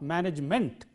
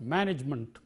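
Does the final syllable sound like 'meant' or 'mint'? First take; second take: meant; mint. First: The last syllable sounds like 'meant'. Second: The last syllable has a weak, short vowel. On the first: The speaker calls it wrong. "not management" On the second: The speaker calls it right. "but management, ment"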